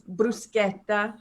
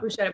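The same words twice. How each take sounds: First: The middle consonant is a hard 'sk' sound. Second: The middle consonant is a soft 'sh' sound. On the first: The speaker calls it right. "I'm gonna tell everybody it's bruschetta" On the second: The speaker calls it wrong. "It's not bruschetta"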